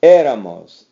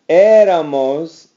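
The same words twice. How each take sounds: First: Éramos with a firm accent on the first é, falling at the end; éramos, the accented é hit hard; stress on the accent. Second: Éramos said slowly, stress on the first syllable, rising at the end; éramos drawn out with a rising finish. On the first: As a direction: punch the first syllable of éramos to show the accent. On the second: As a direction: stretch out éramos, leaning on the opening é. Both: Shown as a demonstration. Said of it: "Accented here".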